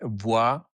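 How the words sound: The name is said with a French pronunciation. "In France, you would say"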